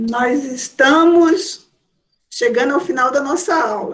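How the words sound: It is said as a statement.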